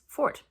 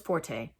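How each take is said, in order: First: It sounds exactly like the word fort. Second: It sounds like the Italian music term forte. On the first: The speaker calls it right. "The pronunciation is fort, ... like the building" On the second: The speaker calls it wrong. "Everybody says forte, and that is not the pronunciation"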